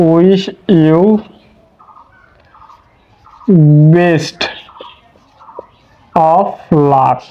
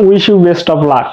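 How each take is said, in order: First: Dictating slowly. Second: Said in the usual way. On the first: Shown as a demonstration. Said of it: "উদাহরণ দিলে খুব ভালোভাবে বুঝতে পারবেন". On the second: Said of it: "আমি sentence দিলাম যে".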